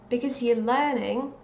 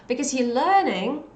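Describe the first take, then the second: Both takes have the same delivery.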